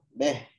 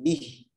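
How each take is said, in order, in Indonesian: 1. Vokalnya condong ke bunyi e. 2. Vokalnya bunyi i yang jelas. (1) "kadang kita baca sering gimana?" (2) "Seharusnya kan bih"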